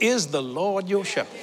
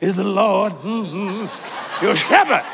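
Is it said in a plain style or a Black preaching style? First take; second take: plain; Black preaching. First: It is said in a plain, ordinary style. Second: It is said in a Black preaching style.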